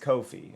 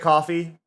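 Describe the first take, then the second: First: It is said to rhyme with no fee. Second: It is said like the drink coffee. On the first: The speaker calls it right. "it's pronounced like no fee" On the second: The speaker calls it wrong. "a lot of people say coffee"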